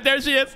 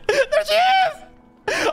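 First: Excited, raised-pitch call; eager and high, not yet screaming; getting hyped. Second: Very high, drawn-out squeal of excitement; shrieking fan welcome; hyped-up scream. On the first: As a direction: spot a favourite arriving, excitement building. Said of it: "I'm getting hyped". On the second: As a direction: scream it slowly, totally hyped. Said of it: "I'm getting fucking hyped". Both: Real, not acted.

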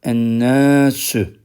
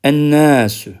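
First: Ennâsü stretched out slowly; slow repeat. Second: Ennâsü, lam silent, doubled nn; sun letter demo. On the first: Teacher slowly repeating for students to follow, slow. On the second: Teacher modelling a sun-letter word for students, clear demo. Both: Shown as a demonstration. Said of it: "lamlar okunmuyor".

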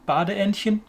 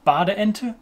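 First: Higher German Badeentchen, ending in -chen; diminutive ending. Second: Bade enter as German Badeente, ending in -te; plain -te ending on bade enter; without diminutive. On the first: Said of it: "this little diminutive form". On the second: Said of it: "not got this little diminutive". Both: Shown as a demonstration.

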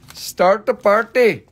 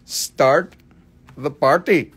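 First: Higher, louder party call; excited call. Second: Said in the usual way. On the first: Shown as a demonstration. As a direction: hype up the viewers. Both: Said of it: "Somebody start the party".

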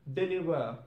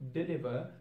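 First: "deliver" said as "delivah"; ah ending. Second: "deliver" ending in an -er. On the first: Teacher showing learners Cockney British, "deliver" ending in ah. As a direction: end "deliver" on an open ah. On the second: Teacher giving the normal English form, "deliver" ending on R. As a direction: finish "deliver" on the R. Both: Shown as a demonstration. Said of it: "sound of R will turn into a sound".

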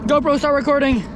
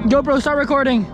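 Both takes have the same delivery.

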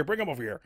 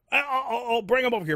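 First: Said in the usual way. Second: Much higher, hurried mock excitement; hammed-up eager friend. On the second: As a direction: squeal it like a kid offered sweets. Friend's eager reply retold.

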